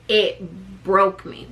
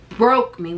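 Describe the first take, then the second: First: "broke me" slow and lower, each word weighed; emphatic repeat. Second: Said in the usual way. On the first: Shown as a demonstration. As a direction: drag out "it broke me" slowly to drive it home. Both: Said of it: "When I say it broke me".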